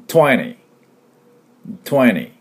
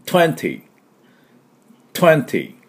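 First: "twenty" as "twenny", second T gone; American dropped T. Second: "twenty" higher, with both Ts crisply released; clear T twenty. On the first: Teacher showing American style, twenty without second T. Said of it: "アメリカ人式で最後を略すと". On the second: Teacher leading repeat-after-me, twenty with both Ts. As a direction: pronounce the first and last T of "twenty". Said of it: "Tしっかり". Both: Shown as a demonstration.

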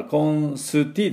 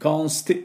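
First: コンスティ with a full "su" syllable; wrong コンスティ, a U after the S; added vowel. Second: コンスティ with "st" run together, no U; high, tight コンスティ without a vowel after S; quick ST cluster. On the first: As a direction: spell out コンスティ as kon-suu-tii. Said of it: "コンスティじゃなくて". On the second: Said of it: "ここまで早く言わないと". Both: Shown as a demonstration.

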